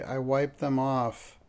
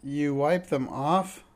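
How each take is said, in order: First: Slow, weighty admission with a falling end; slow falling statement, mildly heavy; heavily. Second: Slow, disbelieving question with a rising end; drawn-out, rising question; weakly. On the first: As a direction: confess it heavily, word by word. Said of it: "said Mister Patch heavily". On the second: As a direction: echo it back in mild dismay. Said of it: "said Encyclopedia weakly". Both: A narrator's reading.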